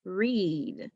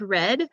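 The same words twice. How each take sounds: First: 'read', rhyming with 'seed'; long E pronunciation. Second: 'red', rhyming with 'bed'; short E pronunciation. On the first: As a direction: say 'read' with a drawn-out 'ee'. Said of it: "and there is the word". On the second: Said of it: "there is the word red". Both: Shown as a demonstration.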